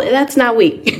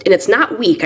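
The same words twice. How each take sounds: First: "not" lifted higher and leaned on; emphatic, higher "not" in "that's not weak"; stress on not. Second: Said in the usual way. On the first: Real, not acted. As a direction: insist that "not" is the point.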